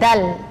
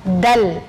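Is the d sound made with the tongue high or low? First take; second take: low; low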